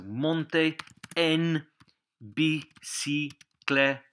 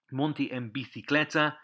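First: Monte en bicicleta broken up syllable by syllable; slow phrase model. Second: Said in the usual way. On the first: Shown as a demonstration. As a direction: say monte, en, bicicleta slowly with gaps. Teacher models phrase slowly, then normally.

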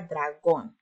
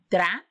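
First: Said in the usual way. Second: "Dragón" in two separate beats, a clear pause in the middle; split into syllables. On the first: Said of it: "Vamos a separar en sílabas". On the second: Shown as a demonstration. Teacher showing pupils the syllables, "Dragón" split apart with a pause. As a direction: break "Dragón" after the first syllable, lifting it before the gap. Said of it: "separar en sílabas la palabra dragón".

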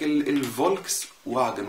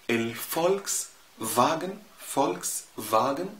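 First: الفولكس with V, واجن with an English W; common Egyptian mispronunciation. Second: الفولكس with F, فاجن with V; German pronunciation. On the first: Retold or imitated. Teacher mocking the press's version, W in واجن instead of V. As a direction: say الفولكس واجن wrongly, volks-wagen with W. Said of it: "لكن كله بيكتب يقول لك". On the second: Shown as a demonstration. Teacher showing correct German, F in فولكس and V in فاجن. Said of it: "هنطقه ف".

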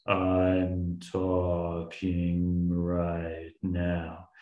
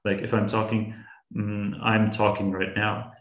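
First: Very slow, deep, dragged-out words like a slowed recording. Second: Said in the usual way. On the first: Shown as a demonstration. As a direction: stretch each word out low and slow like a tape played too slow. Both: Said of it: "I slow it down, it becomes".

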